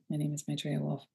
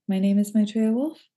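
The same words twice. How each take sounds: First: The voice falls at the end, like a statement. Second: The voice rises at the end, like a question.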